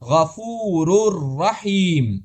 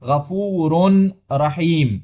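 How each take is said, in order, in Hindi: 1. n की आवाज़ पूरी तरह r में मिल जाती है। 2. n की आवाज़ r से पहले साफ़ सुनाई देती है। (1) "इस तरह हमने पढ़ा" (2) "हमने ये नहीं कहा"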